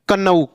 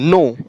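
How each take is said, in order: First: The word begins with a k sound. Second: The word begins with an n sound. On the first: The speaker calls it wrong. "कन्नऊ नहीं पढ़ना है" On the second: The speaker calls it right. "नो, न की"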